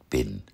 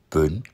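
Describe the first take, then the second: First: The vowel is said with spread, unrounded lips. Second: The vowel is said with rounded lips. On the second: "Ein kurzes I wird ab und zu zu einem Ü. Gerundet"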